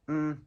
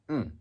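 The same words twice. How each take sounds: First: The pitch stays high and level. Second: The pitch drops sharply from high to low. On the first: "High and flat" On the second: "and falling"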